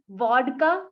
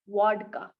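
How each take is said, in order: First: The word begins with a buzzing V sound. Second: The word begins with a rounded W sound. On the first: The speaker calls it right. "It's vodka" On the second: The speaker calls it wrong. "not vodka"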